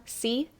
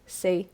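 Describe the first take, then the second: First: "C" said with one pure straight ee, no glide; teacher shows "C" with a flat unmoving vowel. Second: "C" imitated with a slight Australian glide into the ee; mock Australian. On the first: Shown as a demonstration. Teacher contrasting her straight vowel with the student's. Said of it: "For me, it's more of a straight sound". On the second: Teacher echoing the student's Australian "C". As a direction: copy the student's gliding "C". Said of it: "even that has a little bit of it".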